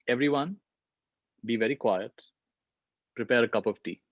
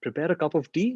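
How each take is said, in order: First: Hushed, calm command to the platoon; captain quietly ordering his men to make tea. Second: Puzzled question, rising at the end; incredulous echo. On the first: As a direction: keep it low and steady so no one hears. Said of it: "the captain says". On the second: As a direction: repeat the order as if it makes no sense. Disbelief at the captain's order. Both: Retold or imitated.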